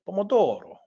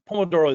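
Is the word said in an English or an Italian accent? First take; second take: Italian; English. First: It is said in an exaggerated Italian accent. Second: It is said in a plain English accent. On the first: "Kind of exaggerating the Italian accent there" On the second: "It's probably not pronounced that way"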